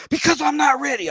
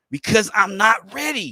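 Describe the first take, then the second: First: Much higher, louder yelled line; mock yell. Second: Raised, higher mock yell; half-hearted shout of refusal; mock scream. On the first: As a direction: scream it out, all at once. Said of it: "He just fucking yells it". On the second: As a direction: yell it like he can't take it. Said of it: "he screams out".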